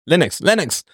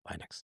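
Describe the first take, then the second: First: "Linux" with a short i, as in "lint". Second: "Linux" with a long i, as LINE-ux; a very soft, lower aside, "Linux" rhyming with "fine ux". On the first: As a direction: say "Linux" twice as LIN-ux, pitched up. Self-correcting how Linux is pronounced. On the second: Other pronunciation of Linux, muttered. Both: Shown as a demonstration.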